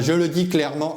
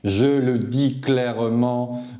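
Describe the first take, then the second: First: The phrase is spoken too quickly. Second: The phrase is spoken more slowly. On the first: The speaker calls it wrong. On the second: The speaker calls it right.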